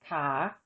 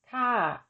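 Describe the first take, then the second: First: The syllable is said with a rising tone. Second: The syllable is said with a falling tone. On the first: "the tone of an unmarked live syllable with no written tone mark is rising" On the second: "With tone mark two, the tone is falling"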